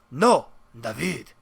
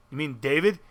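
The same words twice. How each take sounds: First: Put-on David corrected to dah-VEED, slow, in a Spanish accent; imitated Spaniard stretching David into dah-VEED. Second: Said in the usual way. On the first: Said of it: "this is the way he talked". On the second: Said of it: "And I'm like".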